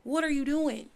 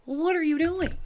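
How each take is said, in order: First: Raised, incredulous question to Angel; exasperated question. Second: Higher, louder mock yell at Angel. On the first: Pretend. Scolding the character Angel, incredulous. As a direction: ask it in disbelief. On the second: Yelling at Angel on screen, mock shout.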